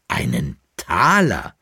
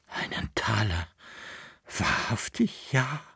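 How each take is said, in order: First: Slow, lowered exclaim of Einen Taler with the stress on Taler; exclaiming, astonished. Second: Einen Taler breathed out soft and airy, barely voiced. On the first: Acted. Dealer sees the boy's coin, slow astonished exclaim. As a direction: weigh the words Einen Taler, awed and slow. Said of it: "rief der Altkleiderhändler". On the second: Boy breathes to the dealer, soft and awed. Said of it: "hauchte der Knabe".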